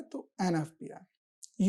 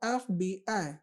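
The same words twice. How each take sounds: First: "एन एफ़ बी आई" slow, each letter apart; "एन एफ़ बी आई" drawn out, letters separated; letter-by-letter demo. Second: Said in the usual way. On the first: Shown as a demonstration. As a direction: spell "एफ़ बी आई" out slowly after an. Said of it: "ये vowel का sound आ रहा है". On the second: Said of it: "मैंने इसको explain करा".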